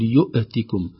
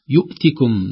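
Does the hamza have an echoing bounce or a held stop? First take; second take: bounce; held stop. First: The hamza is released with an echoing bounce. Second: The hamza is a firm stop without echo. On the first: The speaker calls it wrong. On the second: The speaker calls it right.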